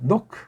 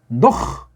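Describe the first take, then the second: First: The name ends with a soft k sound. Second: The name ends with a throaty h sound. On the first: "아주 부드러운 크 노크" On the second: "노흐라고 하세요"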